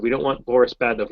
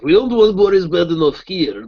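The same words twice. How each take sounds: First: Said in the usual way. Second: Loud, high, slow cartoon Russian accent; Boris Badenov. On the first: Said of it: "They said". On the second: Shown as a demonstration. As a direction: lay the Russian accent on thick. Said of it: "they wanted a Russian accent".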